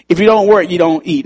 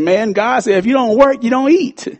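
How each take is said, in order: First: Said in the usual way. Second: High, pointed rising admonition; preaching at him. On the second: Retold or imitated. Pastor retells quoting scripture to lazy friend, pointed rebuke. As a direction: quote the verse at him like a rebuke. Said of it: "I said".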